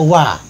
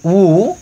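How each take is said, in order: First: The first syllable has the vowel a. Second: The first syllable has the vowel u. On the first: It means the water used for ablution. "bisa dibaca wa" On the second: It means the act of ablution. "bisa dibaca wu"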